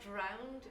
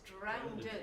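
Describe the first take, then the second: First: It is said the standard English way. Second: It is said the local dialect way. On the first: "it's very close to the standard, but it's not drowned" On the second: "it's drowned"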